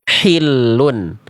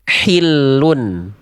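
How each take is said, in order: Both takes have the same delivery.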